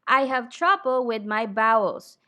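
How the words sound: The V in 'vowels' is said like a B. The speaker calls it wrong. "A Filipino speaker pronounces V and B the same"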